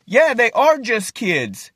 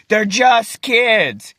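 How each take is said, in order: First: Higher, slow retort with "are" leaned on; stress on ARE. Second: Drawn-out, higher-pitched mock protest; retold attack. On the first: Retold or imitated. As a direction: concede it pointedly, punching the word "are". Throwing their words back. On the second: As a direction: imitate the other team, stretching "just kids". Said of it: "The other team starts attacking me".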